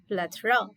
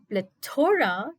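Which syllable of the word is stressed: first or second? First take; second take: first; second. First: The stress is on the first syllable. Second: The stress is on the second syllable. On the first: The speaker calls it right. "The stress has to be on play" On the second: The speaker calls it wrong. "If you place the stress on the word toe, it's incorrect"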